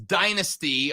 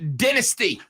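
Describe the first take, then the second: First: It is pronounced the American way. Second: It is pronounced the British way.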